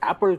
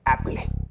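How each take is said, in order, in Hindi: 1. यह एक सादी 'pul' ध्वनि पर खत्म होता है। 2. यह 'play' पर खत्म होता है, इसमें एक अतिरिक्त स्वर जुड़ा है।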